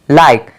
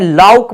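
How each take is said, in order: First: The vowel is 'ai' as in like. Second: The vowel is 'au', sounding like 'lauk'. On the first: The speaker calls it right. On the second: The speaker calls it wrong.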